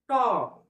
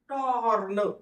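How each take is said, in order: First: The r sound is nearly silent. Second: The r sound is clearly pronounced. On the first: The speaker calls it right. "या ठिकाणी र चा उच्चार एकदम नकळत आहे" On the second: The speaker calls it wrong. "टॉर्न असं नाही"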